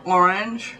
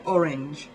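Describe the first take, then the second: First: "orange" with a drawn-out first O; emphasis on O. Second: "orange" as ORR-inj, second vowel a short i; British "orange", ending like "hinge"; English pronunciation. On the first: English speaker mimicking American emphasis, long-O "orange". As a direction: lean on the O in "orange". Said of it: "the emphasis on the O". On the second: English speaker showing how we say it, ORR-inj "orange". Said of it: "where we say orange". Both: Shown as a demonstration.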